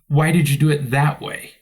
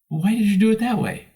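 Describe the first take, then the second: First: The question sounds scornful and disapproving. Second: The question sounds curious and fascinated. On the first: The speaker thinks the listener is foolish. "if my tone of voice is different" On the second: The speaker wants to learn from the listener. "I'm fascinated that you did it that way"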